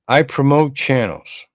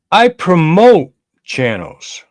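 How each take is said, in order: First: Said in the usual way. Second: I promote channels said high, loud and slow, with I hit hard; emphatic insistence. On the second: Real, not acted. Defending himself to his chat with a loud emphatic stress on I.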